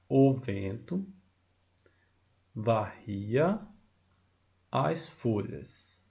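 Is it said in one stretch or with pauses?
with pauses. The line is split into small groups with pauses.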